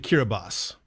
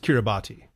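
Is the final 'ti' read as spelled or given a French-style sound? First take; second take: French-style; as spelled. First: The final 'ti' takes a French-style pronunciation. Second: The final 'ti' is pronounced as it is spelled. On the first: The speaker calls it right. "it's actually Kiribati" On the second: The speaker calls it wrong. "you look at that and you think that's Kiribati"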